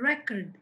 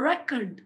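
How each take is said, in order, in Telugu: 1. Stress మొదటి syllable మీద ఉంది. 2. స్ట్రెస్ మొదటి సిలబుల్ మీద ఉంది.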